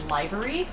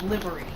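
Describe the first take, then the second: First: The first syllable sounds like 'live' in lively. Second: The first syllable sounds like 'liv' in give. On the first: The speaker calls it wrong. "I could have sworn it was livery, which, if you think about it, makes sense because it's the liveliness" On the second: The speaker calls it right. "I started hearing people saying it livery"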